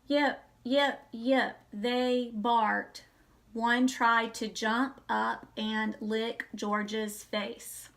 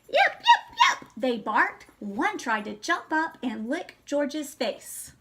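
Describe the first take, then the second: First: It is read flatly, like a robot. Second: It is read with lively, varied expression.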